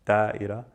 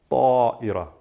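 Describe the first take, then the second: First: تائرة with a light plain T, as the wrong form; wrong soft T. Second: طائرة with a hard emphatic ṭ and dark a; exaggerated heavy ṭ. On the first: Teacher showing the wrong soft T in تائرة. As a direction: say تائرة with a soft T to show the mistake. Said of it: "I'm not saying تائرة". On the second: Teacher exaggerating the heavy ṭ in طائرة. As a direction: overdo the ṭ in طائرة. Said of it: "exaggerate and say with as heavy ta as you can". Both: Shown as a demonstration.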